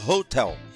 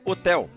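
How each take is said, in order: First: The word begins with an audible breathy h. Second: The word begins with a silent h. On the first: "nós imaginamos um H mais ou menos americanizado" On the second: "na língua portuguesa vai o H, mas é hotel"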